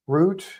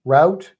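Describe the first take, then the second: First: ROUTE said as "root"; rhymes with boot. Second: ROUTE said as "rowt"; rhymes with out. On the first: Host trying both ways for listener, rhyming with boot. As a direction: say "route" with an OO vowel, questioning. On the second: Host trying both ways for listener, rhyming with out. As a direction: say "Route" with an OW vowel, questioning. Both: Shown as a demonstration. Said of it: "How do you say it?".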